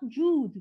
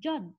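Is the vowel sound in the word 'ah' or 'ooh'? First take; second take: ooh; ah. First: The vowel is a long 'ooh' sound. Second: The vowel is a short 'ah' sound. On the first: The speaker calls it wrong. "This is not Jude" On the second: The speaker calls it right. "this is Jud"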